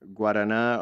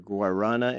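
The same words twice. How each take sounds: First: It is said without an American accent. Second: It is said with an American accent.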